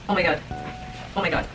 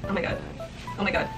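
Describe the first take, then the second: No difference in how they are said.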